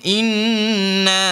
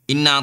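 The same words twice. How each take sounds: First: The double n is held with a nasal hum. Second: The double n is short, without a nasal hum. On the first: The speaker calls it right. "Dia kena dengung" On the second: The speaker calls it wrong. "tak ada dengung"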